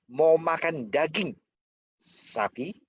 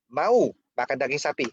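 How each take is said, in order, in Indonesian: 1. Jeda ada tepat sebelum kata terakhir. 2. Jeda ada tepat setelah kata pertama. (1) "Sapi yang ditanya" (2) "Mau atau enggak kan?"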